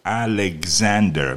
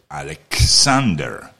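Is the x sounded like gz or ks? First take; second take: gz; ks. First: It is said the English way, with gz. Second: It is said the Russian way, with ks.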